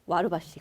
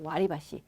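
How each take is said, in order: First: The second syllable has an 'ru' sound. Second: The second syllable has an 'ri' sound. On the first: The speaker calls it wrong. "우리는 와르바시 이렇게 외우잖아요" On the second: The speaker calls it right. "정확한 발음은 와리바시예요"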